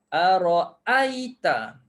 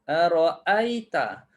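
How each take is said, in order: First: The second glottal stop is fully and clearly pronounced. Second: The same.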